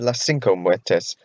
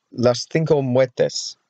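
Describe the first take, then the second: First: CINCO with an s, "SEEN-ko"; Cinco with a plain s, no th; film character's pronunciation. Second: CINCO with a th, "THEEN-ko"; Cinco lisped Castilian-style as "thinko"; Castilian pronunciation. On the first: Retold or imitated. Vlogger quoting the film, Cinco said "sinko". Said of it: "He said Las Cinco Muertes". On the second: Shown as a demonstration. Vlogger recalling the island's name, Cinco said "thinko". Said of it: "it'll be Cinco".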